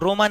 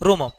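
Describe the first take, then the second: First: The word ends on an open vowel. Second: The word ends with an m sound. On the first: The speaker calls it wrong. "रोमा नहीं" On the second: The speaker calls it right.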